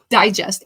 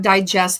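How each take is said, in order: First: The stress is on the first syllable. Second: The stress is on the second syllable. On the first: It names a summary or publication. The speaker calls it right. "a digest, like Reader's Digest" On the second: It names the act of processing food. The speaker calls it wrong. "not digest like I'm digesting my food"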